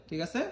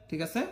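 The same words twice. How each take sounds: The two takes are said the same way.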